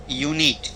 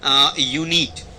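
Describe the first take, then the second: First: Said in the usual way. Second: unit stretched slowly, low; slow dictation. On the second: Shown as a demonstration. Teacher writing a word on the board, slowly. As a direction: draw out unit for the class. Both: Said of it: "मैंने यहाँ पे लिख दिया".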